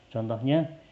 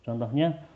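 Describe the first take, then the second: Both takes have the same delivery.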